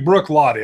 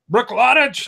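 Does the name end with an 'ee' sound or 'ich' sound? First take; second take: ee; ich. First: The name ends in a plain 'ee' sound. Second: The name ends in an 'ich' sound. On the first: The speaker calls it right. "you better say Brook Lottie" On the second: The speaker calls it wrong. "I don't want to hear any kind of Brook Lottich"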